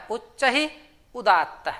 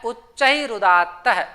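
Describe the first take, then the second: First: उच्चैरुदात्तः said slowly, syllable by syllable; उच्चैरुदात्तः drawn out like a teacher reciting a rule; slow sutra recitation. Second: Said in the usual way. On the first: Shown as a demonstration. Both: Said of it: "उसका सूत्र होता है".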